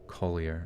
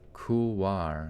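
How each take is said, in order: First: It ends with a 'yer' sound, like 'collier'. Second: It ends with a 'wahr' sound, like 'kool-wahr'. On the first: "It might be Collier" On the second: "Oh. Couloir. Okay"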